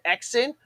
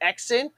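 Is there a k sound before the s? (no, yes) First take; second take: yes; yes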